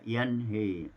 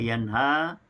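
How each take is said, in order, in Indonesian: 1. Vokal akhirnya condong ke e. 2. Vokal akhirnya adalah a terbuka.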